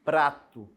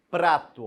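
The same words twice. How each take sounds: First: "prato" repeated firmly, PR cluster crisp; second firm "prato"; careful demo word. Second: "Prato" louder, P and R both clear; careful demo word. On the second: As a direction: say "Prato" firmly, hitting the PR cluster. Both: Shown as a demonstration. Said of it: "Eu tenho o som do P e do R".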